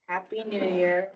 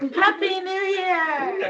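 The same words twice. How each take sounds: First: It is said flatly, without energy. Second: It is said with lively energy.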